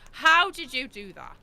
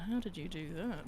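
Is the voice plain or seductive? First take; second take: plain; seductive. First: It is said in a plain voice. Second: It is said in a seductive voice. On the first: The speaker calls it wrong. "I better do that again" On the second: The speaker calls it right. "Voldemort asked in a turned on voice"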